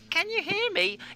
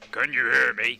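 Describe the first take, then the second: First: It is said in a high-pitched voice. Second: It is said in a low-pitched voice. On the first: "and a high voice" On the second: "a low voice"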